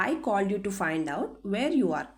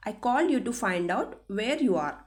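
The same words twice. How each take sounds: The two takes are said the same way.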